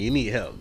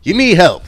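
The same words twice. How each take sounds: First: Quiet. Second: Loud emphatic. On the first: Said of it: "repeated, softer take". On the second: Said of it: "repeated, louder take". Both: Real, not acted.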